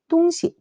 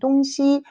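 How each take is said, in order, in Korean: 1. 두 번째 음절은 가볍고 성조가 없어요. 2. 두 번째 음절은 본래 성조를 유지해요. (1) "경성으로 읽으면 물건" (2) "원래 성조대로 읽으면은 방향"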